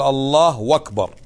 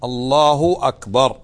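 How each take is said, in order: First: "الله أكبر" with the u of "الله" lengthened into "اللهو"; wrong added waw. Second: "الله أكبر" with a short, clean u on "الله"; correct short u. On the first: Teacher demonstrating the common wrong pronunciation. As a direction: stretch the final u of "الله" into a w. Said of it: "يشبع الضمة ... إلى واو". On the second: Teacher giving the correct form. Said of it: "جملة اسمية، مبتدأ وخبر". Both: Shown as a demonstration.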